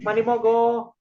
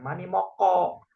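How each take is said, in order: First: The consonant in mogo is a soft g sound. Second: The consonant in moko is a hard k sound. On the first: The speaker calls it right. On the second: The speaker calls it wrong. "bukan mani moko"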